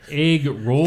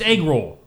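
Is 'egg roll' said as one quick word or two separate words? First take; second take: separate words; one word. First: Said slowly as two separate words. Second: Said quickly as one joined word. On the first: It sounds like eggs that are rolling. The speaker calls it wrong. "I was talking like it was like eggs that were rolling" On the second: It names the food. The speaker calls it right. "You have to say quick"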